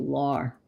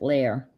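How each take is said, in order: First: The vowel sounds like the word 'are'. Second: The vowel sounds like the word 'air'.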